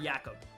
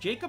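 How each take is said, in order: First: The name starts without a hard J sound. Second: The name starts with a hard J sound. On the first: "silent J" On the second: "hard J"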